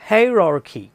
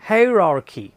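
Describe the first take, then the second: The two takes are said the same way.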